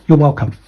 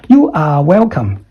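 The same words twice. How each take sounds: First: "You're welcome." with "You're" contracted to "yer"; contracted take. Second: "You are welcome." with "You are" spelt out in full; uncontracted wrong take. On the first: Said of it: "make the, uh, contraction". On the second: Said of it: "Don't say". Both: Shown as a demonstration.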